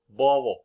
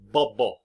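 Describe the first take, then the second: First: The middle b is a soft fricative. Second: The middle b is a full stop. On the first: "but we say" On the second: "in theory, the proper pronunciation of this word would be"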